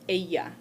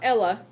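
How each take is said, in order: First: The double L is sounded like a Y. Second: The double L is sounded like an L. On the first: The speaker calls it right. "Double L sounds like a Y" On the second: The speaker calls it wrong. "This is not umbrella"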